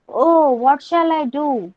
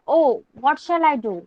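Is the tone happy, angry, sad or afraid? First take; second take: happy; angry. First: It is shouted with a happy, joyful tone. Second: It is said with an angry tone.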